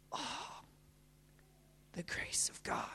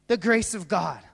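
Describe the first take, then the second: First: Hushed whisper of wonder; barely audible, breath-only awe; awed whisper. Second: Said in the usual way. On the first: Real, not acted. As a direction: whisper it in reverence. Awed repeat, whispered then voiced.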